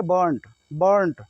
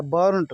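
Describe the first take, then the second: First: बर्न्ट as "buhnt", R barely there; silent R. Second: बर्न्ट with the R sounded; as written. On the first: Teacher answering how to say it, silent R. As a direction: soften the R away in बर्न्ट. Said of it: "लेकिन बोलेंगे कैसे?". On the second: Teacher reading the spelling, R sounded. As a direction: pronounce the R in बर्न्ट. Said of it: "बर्न्ट लिखा है". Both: Shown as a demonstration.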